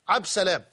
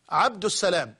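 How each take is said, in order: First: The name is said without the article before salam. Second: The name is said with the article before salam. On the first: The speaker calls it wrong. "لا يقولون يا عبد السلام، وإنما عبد سلام" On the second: The speaker calls it right. "الأولى والأكمل بلا ريب ... أن نقول عبد السلام"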